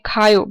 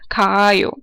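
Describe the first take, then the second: First: The vowel is short, one quick syllable. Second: The vowel is drawn out long. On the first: The speaker calls it right. "Koreans always say khayo" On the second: The speaker calls it wrong. "little weird, a little bit um, long too"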